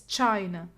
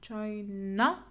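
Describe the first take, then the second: First: China with CHAI strong, NA light; settled, lower China, stressed at the start; first-syllable stress. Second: China drawn out as chai-NA, rising; questioning China, last syllable stretched and lifted; second-syllable stress. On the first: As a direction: land on CHAI in China, falling away. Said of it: "Yeah, it's China". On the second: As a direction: test China with the weight on NA. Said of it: "I never stressed the second syllable". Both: Shown as a demonstration.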